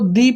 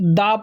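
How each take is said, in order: First: The word ends in a long 'ee' vowel. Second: The word ends in a short 'uh' vowel. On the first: The next word begins with a vowel sound. "जब हमारा vowel sound आता है तो इस case में जो हमारा definite article है, इसको दी पढ़ा जाता है" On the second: The next word begins with a consonant sound. "जब हमारा कॉन्सोनेंट साउंड आता है तो इस केस में हम लोग दा पढ़ते हैं"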